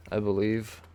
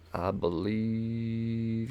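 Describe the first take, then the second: First: Said in the usual way. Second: Stretched and softer, very slow; a lazy, musing repeat to himself; slow drawn-out echo. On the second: Shown as a demonstration. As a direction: drag it out like a playful echo. Drawn-out echo of his own words.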